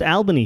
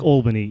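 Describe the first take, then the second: First: It is said the local Australian way. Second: It is said the New York way. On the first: "it is pronounced Albany here" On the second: "like Albany in New York"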